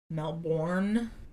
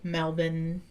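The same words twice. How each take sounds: First: It is said fully, the way it is spelled. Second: It is said in a shortened, Australian-sounding way. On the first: "which is how it's spelled" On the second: "it's like I'm trying to be Australian"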